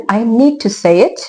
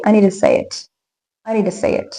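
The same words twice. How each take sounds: First: Slow, separate words in "need to"; careful full form. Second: "need to" run together with a weak "to"; connected native speech. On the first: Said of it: "Instead of saying". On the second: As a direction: blend "need to" into one easy word. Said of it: "we can say". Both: Shown as a demonstration.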